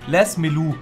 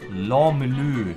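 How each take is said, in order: First: The name is pronounced the German way. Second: The name is pronounced the French way. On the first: "Ich spreche die einfach mal Deutsch aus" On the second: "so wird er bestimmt ausgesprochen"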